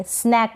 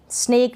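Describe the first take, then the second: First: स्नैक with short open "ae", as in "snack"; correct pronunciation. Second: स्नेक with long "ay", like "snake"; wrong pronunciation. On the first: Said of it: "स्नैक पढ़ेंगे". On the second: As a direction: say स्नेक with closed e vowel. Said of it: "नहीं पढ़ेंगे". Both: Shown as a demonstration.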